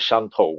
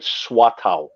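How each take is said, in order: First: The name is pronounced the Mandarin way. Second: The name is pronounced the Teochew way. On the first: This is the name used nowadays. "sort of the Mandarin pronunciation" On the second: This is the old local name. "the Teochew pronunciation"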